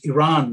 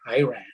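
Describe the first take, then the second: First: The first syllable sounds like 'ee', not 'eye'. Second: The word sounds like 'I ran'. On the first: This is the correct name of the country. The speaker calls it right. "so I wanted to tell him it's it's it's it's Iran" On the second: This is how the insulting man said it. The speaker calls it wrong. "the way he pronounced it, you know, accurately described what I did next"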